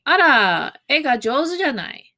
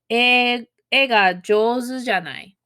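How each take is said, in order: First: Higher, lively "Ara, e ga jouzu janai" said as a musing compliment; impressed remark seeking agreement. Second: Said in the usual way. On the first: Shown as a demonstration. Teacher demos the compliment to a student, impressed and lightly rising. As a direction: admire the drawing and invite a nod. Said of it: "you're saying". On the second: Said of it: "you would say".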